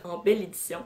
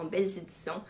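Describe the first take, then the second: First: "belle édition" said as singular, no z before "édition"; singular correction. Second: "belles éditions" said as plural, liaison z sound before "éditions"; plural slip. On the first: Vlogger corrects herself to singular "belle édition". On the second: Vlogger misspeaks the title format in plural form. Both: Real, not acted. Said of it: "j'ai dit ça au pluriel".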